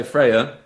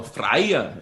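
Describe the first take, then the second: First: Said in the usual way. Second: Freya said as FRY-a, imitating a listener catching on; imitated corrected pronunciation. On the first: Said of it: "when you say". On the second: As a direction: mimic someone recognising Freya, pronounced FRY-a. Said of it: "And then you go".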